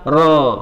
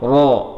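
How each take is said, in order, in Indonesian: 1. Vokal itu diucapkan dengan mulut yang hanya terbuka. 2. Vokal itu diucapkan dengan bibir maju dan membulat. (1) "mulut hanya membuka ro" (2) "jangan monyong ro"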